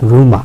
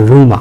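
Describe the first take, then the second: The two takes are said the same way.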